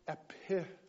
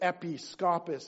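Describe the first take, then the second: First: It is slurred with the stress moved. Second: It is said carefully with its usual stress.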